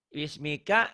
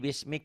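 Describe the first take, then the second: First: The word ends with a final a vowel. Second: The word ends on the consonant k. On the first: The reading continues past this word. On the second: The reader stops at this word.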